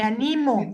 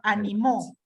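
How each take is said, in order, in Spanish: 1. La sílaba con acento es la del medio. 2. La sílaba con acento es la última. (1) "sin tilde" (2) "con acento en la última, en la última sílaba"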